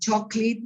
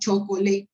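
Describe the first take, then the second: First: The middle syllable is dropped. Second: The middle syllable is pronounced. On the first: The speaker calls it right. "drop, to eliminate one syllable" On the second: The speaker calls it wrong.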